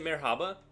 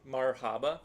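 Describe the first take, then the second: First: The first vowel sounds like 'eh'. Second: The first vowel sounds like 'ah'. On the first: The speaker calls it wrong. "So it's not not an e" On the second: The speaker calls it right. "It's M A R H A B A"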